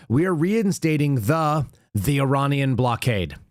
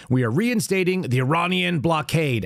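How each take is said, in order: First: Slow, weighty mock read of reinstating; slow mock presidential reading. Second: Said in the usual way. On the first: Shown as a demonstration. Reading the president's post aloud, slow and weighty. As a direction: drawl out We are reinstating like a decree. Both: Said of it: "Hold on, let me say this again".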